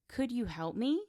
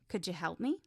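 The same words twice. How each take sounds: First: Every word is pronounced fully and separately. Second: The words are reduced and run together.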